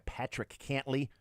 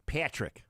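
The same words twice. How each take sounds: First: A slip into an odd unnamed accent on "Patrick Cantlay". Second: Said in the usual way. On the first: Shown as a demonstration. Host reading golf pairings, slipping into an odd accent. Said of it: "I don't know why I went in that, uh, uh, accent". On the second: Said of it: "I don't know why I went in that".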